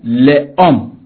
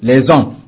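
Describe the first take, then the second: First: The words are said without a liaison sound. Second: The words are said with a liaison sound. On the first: The speaker calls it wrong. "On ne peut pas dire au pluriel" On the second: The speaker calls it right. "on peut finaliser avec"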